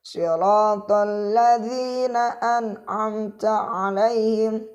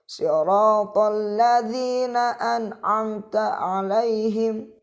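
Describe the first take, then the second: The two takes are said the same way.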